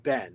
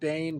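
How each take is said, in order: First: The vowel is short, like 'ben'. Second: The vowel is drawn out, like 'bane'. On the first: "for Americans it can be Ben, which is easy" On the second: "so it's sort of Bane"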